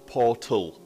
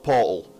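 First: The t sound is clearly pronounced. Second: The t sound is dropped or swallowed. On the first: "I am capable of saying Portal" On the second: "not Portal"

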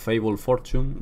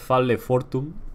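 First: The name is pronounced with English sounds. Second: The name is pronounced with Spanish sounds. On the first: "o en inglés" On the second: "si en español"

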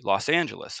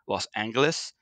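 First: The G is pronounced as a soft G. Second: The G is pronounced as a hard G. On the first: "Or soft G" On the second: "Should it be a hard G"

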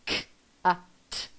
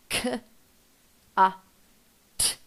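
First: The three sounds are said quickly with short gaps. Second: The three sounds are said slowly with long gaps. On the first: "Let's say the sounds faster" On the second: "we say the sounds k, a, t"

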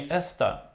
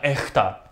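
First: The s is a clear hissing sound. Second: The s becomes a breathy h sound. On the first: "эста это не эста" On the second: "это эхта"

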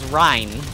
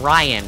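First: The name is said like 'Rhine'. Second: The name is said like 'Ryan'. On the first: This is the original German name. The speaker calls it right. "It's German. It's Rhine" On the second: This is how other people say the name. The speaker calls it wrong. "That's why I hate when people call him Ryan"

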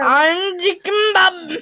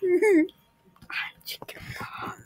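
First: It is said loudly. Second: It is said quietly.

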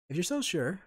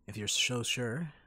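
First: The s sound is clean, without whistling. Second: The s sound has a whistling lisp.

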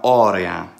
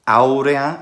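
First: The first vowel is a plain 'aw' sound. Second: The first vowel is a gliding 'ow' sound. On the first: This is the later, vulgar pronunciation. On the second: This is the earlier, classical pronunciation.

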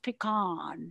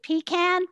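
First: Pecan is said the local Texas way. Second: Pecan is said the Northern, Yankee way. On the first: This is how locals say it. The speaker calls it right. "it's pronounced pecan" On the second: This is how an outsider from the North says it. The speaker calls it wrong. "as a Yankee, I pronounced it pecan"

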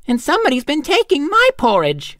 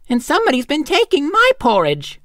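First: A middle-sized voice for the mother bear. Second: A middle-sized voice for the mother bear.

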